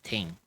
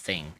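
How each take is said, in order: First: The word begins with a plain t sound. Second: The word begins with a th sound. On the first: "it comes out as ting" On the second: "not thing"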